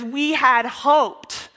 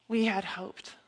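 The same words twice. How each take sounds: First: Drawn-out, weighty "We had hoped"; slow down and lean on each word of "We had hoped"; emphatic lament. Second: Softer, resigned echo of "We had hoped"; subdued lament. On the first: Quotes Cleopas's heartfelt disappointment. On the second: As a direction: let "We had hoped" sink, quietly. Repeats the lament softly. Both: Acted.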